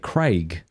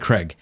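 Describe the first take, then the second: First: It is said in an Australian accent. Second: It is said in an American accent.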